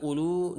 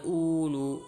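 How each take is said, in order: First: Ulu with a short, quick first u; short first vowel. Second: Ulu with a long, drawn-out "uu" at the start; overlong first vowel. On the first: Teacher showing the correct reading, ulu with short opening u. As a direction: say ulu without stretching the opening u. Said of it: "itu semua dibaca ulu dan uli". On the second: Teacher showing students a misreading, ulu with stretched first u. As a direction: stretch the opening u of ulu slowly. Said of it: "bukan ulu". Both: Shown as a demonstration.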